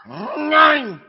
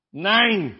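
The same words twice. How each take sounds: First: Nein barked high and loud in German; hammed-up German Nein; exaggerated German nein. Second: Nein said simply, moderate; a plain German Nein. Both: Shown as a demonstration. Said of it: "you could really sound German there".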